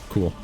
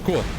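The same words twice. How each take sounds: First: It is said in a sarcastic tone. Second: It is said in a genuinely pleased tone. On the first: The speaker is not actually pleased. "that was a sarcastic cool" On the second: The speaker is actually pleased. "a genuine"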